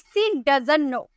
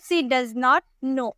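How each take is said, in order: First: Does not is contracted into doesn't. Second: Does not is said as two full words.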